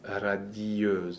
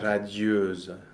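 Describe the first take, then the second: First: The i and the vowel form two syllables. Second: The i glides into the vowel as one syllable. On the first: The speaker calls it wrong. "not radieuse" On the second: The speaker calls it right. "Normally, that word is also a J glide"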